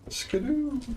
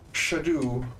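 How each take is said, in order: First: The word begins with a hard sk sound. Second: The word begins with a soft sh sound. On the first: The speaker calls it wrong. "I heard a certain person pronounce it as Skadoo" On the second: The speaker calls it right. "the S C is like a sh"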